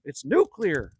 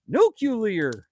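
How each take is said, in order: First: Nuclear said cleanly as "noo-klee-ar", no extra u; correct nuclear. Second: Nuclear said as "nucular", with an extra u sound after the k; mock Bush saying nuclear as "noo-kyu-lar"; George Bush's nuclear. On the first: Shown as a demonstration. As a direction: say nuclear the proper way, two clear syllables then "ar". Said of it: "there was no extra U". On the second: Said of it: "as George Bush used to call it".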